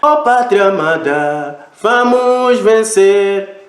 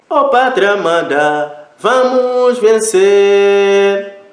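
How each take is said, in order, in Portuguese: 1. Os sons são mantidos apenas por pouco tempo. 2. Os sons são mantidos por um tempo moderado. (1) "Foi um som curto" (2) "Pode também fazer um som médio"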